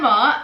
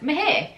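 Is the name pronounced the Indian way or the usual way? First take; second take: usual; Indian. First: The name is said without an Indian pronunciation. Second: The name is said with an Indian pronunciation. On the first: "I still struggle to pronounce that" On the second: "that can be an Indian name too, so it could be also pronounced as Meher"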